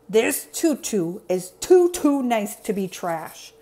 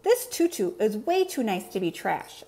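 First: Slow, grouchy character voice; Oscar scowling. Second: Lightly voiced little monster's declaration; Elmo declaring. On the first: Acted. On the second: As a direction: declare it in a mild character voice. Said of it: "Elmo declared".

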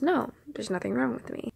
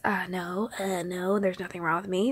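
First: Soft, straightforward no, falling at the end; response as intended. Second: Lower, softer, hesitant denial lifting at the end; response as heard. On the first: Friend's answer as it was meant, plainly reassuring. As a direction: give a simple, quiet, settled denial. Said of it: "response that I was supposed to hear". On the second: Friend denying a problem as she heard it, hedging. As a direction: hedge the no, end on a rise. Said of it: "That's how I heard it". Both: Retold or imitated.

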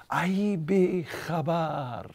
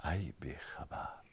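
First: Higher, slow, otherworldly call; voice of God. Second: Low, breathy whispered rebuke; hushed whisper. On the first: God calling to the old woman in her dream, slow and lofty. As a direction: stretch each word out like a voice from above. Third take of God's rebuke. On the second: God chiding the dreaming old woman, hushed whisper. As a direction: whisper it like a secret reproach. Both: Acted.

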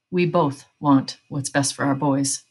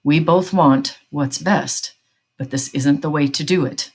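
First: Slow, measured, trying to sound calm; slow, controlled plea for reason; strained calm. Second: Slow, deliberate stress on "both" and "best"; measured insistence, leaning on "both" and "best"; firm insistence. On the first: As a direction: hold it steady, barely keeping calm. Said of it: "trying to sound calm, but he wasn't". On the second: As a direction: press "both" and "best" slowly, firmly. Father repeats plea, tension rising. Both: A narrator's reading.

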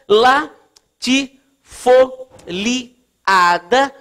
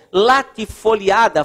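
First: LATIFOLIADA in very slow, separate syllables; sílaba por sílaba. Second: Said in the usual way. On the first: Real, not acted. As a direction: dictate "latifoliada" with a pause after each syllable. Dita o termo enquanto escreve. ("latifoliada" ditado pausadamente, sílaba por sílaba)

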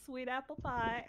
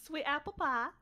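First: Softer, weakening southern accent; southern accent fading toward plain speech; slipping southern accent. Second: Southern accent with "pie" opened to "pah". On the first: Practicing the accent and losing it, slipping southern accent. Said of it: "I'm losing it already". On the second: Practicing the character's accent three times, southern accent. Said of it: "say sweet apple pie in a southern accent". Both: Shown as a demonstration.

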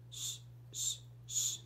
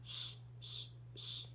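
No difference in how they are said.

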